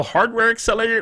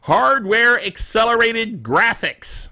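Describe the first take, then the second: First: "hardware accelerated" rushed and tangled into babble; tongue-tripped. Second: "hardware accelerated graphics" slow, louder at first, each syllable separated; retry "hardware accelerated graphics" slowly and deliberately; careful enunciation. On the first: Host tripping over "hardware accelerated" while reading tech news, tongue-tied. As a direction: stumble over "accelerated" until it dissolves into garbled syllables. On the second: Host retrying the "hardware accelerated graphics" tongue twister, careful enunciation.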